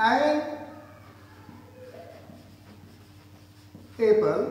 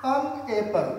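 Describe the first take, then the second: First: "एन" with a clear "e" vowel. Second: "अन" with a short, neutral "uh" vowel. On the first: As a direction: say "एन apple" like the old-fashioned way. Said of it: "ये थोड़ा सा backward sound लगता है". ("एन" को साफ़ "ए" से बोलें) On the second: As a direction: say "अन एप्पल", not "en". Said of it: "हम लोग अन के रूप में पढ़ते हैं". ("अन" को हल्के "अ" से बोलें) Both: Shown as a demonstration.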